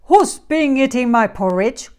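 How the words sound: It is growled in a deep voice.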